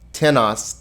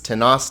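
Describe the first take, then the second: First: The accent falls on the first syllable. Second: The accent falls on the second syllable. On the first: It asks who or what. "Accent on the front, interrogative" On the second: It means someone or something, indefinite. "no accent on the first syllable, indefinite"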